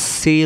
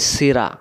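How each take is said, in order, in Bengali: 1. শব্দটি শেষে খালি r ব্যঞ্জন দিয়ে শেষ হয়। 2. শব্দের শেষে একটি স্বরবর্ণ যোগ করা হয়। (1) "রজবর র কি হলো সির সির" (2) "র জবর রা হয়ে যায় ... তখন ভুল হয়ে যায়"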